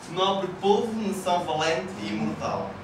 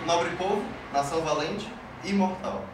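First: It is said with a European Portuguese accent. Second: It is said with a Brazilian Portuguese accent.

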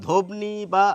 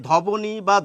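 The two takes are said the same way.

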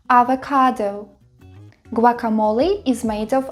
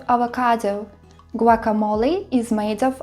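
The two takes are said the same way.

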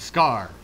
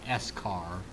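First: It is said as one syllable, scar. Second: The letter S is said separately, then car. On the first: The speaker calls it right. "it's the scar" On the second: The speaker calls it wrong. "not the S-car"

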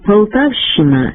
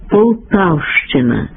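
First: The щ is said without a separate ch. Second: The щ is said as sh followed by ch. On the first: The speaker calls it wrong. "Поширену вимову ... карикатурою на українську орфоепію" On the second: The speaker calls it right. "Слід вимовляти"

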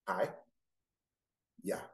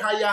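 First: The two syllables are said slowly and apart. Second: The two syllables are said fast and run together.

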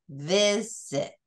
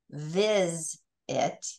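First: The middle consonant starts the second syllable. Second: The middle consonant closes the first syllable. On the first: The speaker calls it right. "We say visit" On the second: The speaker calls it wrong. "we don't say viz it"

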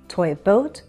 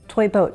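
First: The phrase is said slowly. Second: The phrase is said quickly. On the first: The speaker calls it right. "But if I slow down, I can do it" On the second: The speaker calls it wrong. "Try saying toy boat 5 times fast"

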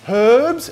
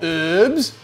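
First: The word starts with an audible h sound. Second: The word starts without any h sound. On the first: The speaker calls it right. "Because it has a H at the start of it, which is not silent" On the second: The speaker calls it wrong. "not herbs"

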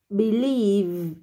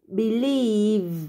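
First: The stress is on the second syllable. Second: The same.

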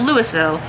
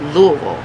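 First: The name is said the way outsiders say it. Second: The name is said the way locals say it. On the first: This is how people from another state say it. The speaker calls it wrong. "It's not Louisville" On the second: This is how people from Kentucky say it. The speaker calls it right. "It's Louisville. Okay? Get it right"

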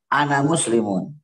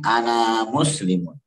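First: The final vowel of ana is short. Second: The final vowel of ana is held long. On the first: This is how most Arabic dialects say it. "Kalau yang lain" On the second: This is how the Bani Tamim dialect says it. "kalau Bani Tamim"

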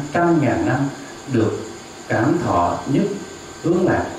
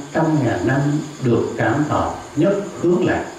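The two takes are said the same way.

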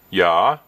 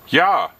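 First: The voice falls calmly, like an answer. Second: The voice is loud, like calling out. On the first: The speaker is agreeing. "which is a yes" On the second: The speaker is calling out. "which is a shout"

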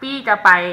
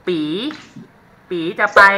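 First: It has a standard Central Thai accent. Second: It has a Northern Thai accent with a rising tone. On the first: "แปลว่าพี่จะไป" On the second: "ลักษณะเด่นอย่างนึงของภาษาเหนือเนี่ยสำเนียงจะเป็นเป๊ะเป๊ะ"

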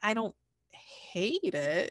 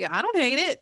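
First: It sounds reluctant, as if barely tolerating it. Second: It sounds pleased, as if actually liking it.

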